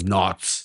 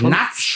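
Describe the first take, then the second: First: The word sounds like 'nords', long and rounded. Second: The word sounds like 'nuts', short and unrounded. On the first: The speaker calls it right. "sondern Nords" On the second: The speaker calls it wrong. "Nicht Nuts"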